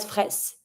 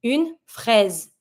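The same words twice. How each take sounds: First: Fraise with a hissed S, not a Z; wrong fraise with an S. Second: Une fraise, the S said as a Z; French fraise with a z sound. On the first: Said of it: "and not". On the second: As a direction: buzz the S in fraise. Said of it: "pronounce the S like a Z sound". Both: Shown as a demonstration.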